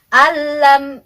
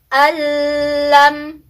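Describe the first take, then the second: First: The n merges into the l without nasal hum. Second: The n merges with a held nasal hum. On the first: The speaker calls it right. "kita masukkan tapi jangan berdengung" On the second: The speaker calls it wrong. "salah, tidak boleh ditahan ya, tidak dengan gunnah"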